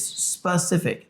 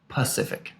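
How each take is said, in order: First: The word starts with the s sound. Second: The word starts without the s sound. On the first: The speaker calls it right. "it's specific" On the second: The speaker calls it wrong. "he says Pacific ... you didn't put the S in there"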